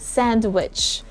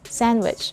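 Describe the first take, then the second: First: The d sound is pronounced. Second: The d sound is left out. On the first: The speaker calls it wrong. "I didn't say sandwich" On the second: The speaker calls it right. "Just like the letter D in the word sandwich"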